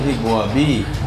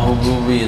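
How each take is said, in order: First: The word begins with hib, as hibwabi. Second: The word begins with hu, as hububi. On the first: The speaker calls it wrong. "Tadi hibwabi. ... bukan hibwabi" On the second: The speaker calls it right. "hububi yang betul"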